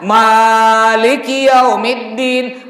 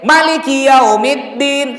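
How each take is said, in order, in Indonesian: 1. Vokal pertama dari 'Maliki' panjang. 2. Vokal pertama dari 'Maliki' pendek. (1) "Ma boleh ma-nya panjang" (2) "Boleh ma-nya pendek"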